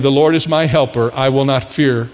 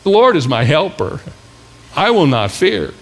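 First: It is read in a plain, ordinary way. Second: It is read in a bold, forceful way.

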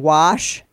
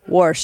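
First: The word is said without an R sound. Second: The word is said with an R sound. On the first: The speaker is putting on the standard form. The speaker calls it wrong. "Me saying wash is me faking saying it correctly" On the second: This is the speaker's natural everyday form. The speaker calls it right. "It gets said with an R in it"

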